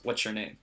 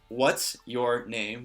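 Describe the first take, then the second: First: Said quickly, with 'what's your' blending into 'ch'. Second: Each word is said separately and clearly.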